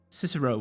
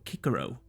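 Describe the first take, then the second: First: The name begins with an S sound. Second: The name begins with a K sound.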